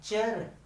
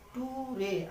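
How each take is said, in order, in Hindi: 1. इसे एक अक्षर में बोला जाता है, 'chur'। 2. इसे दो अक्षरों में बोला जाता है, 'too-ray'। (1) "इसको क्या पढ़ते हैं हमेशा? चर पढ़ते हैं" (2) "इसको ये मत पढ़िएगा कि टू रे ... लेकिन ये गलत है"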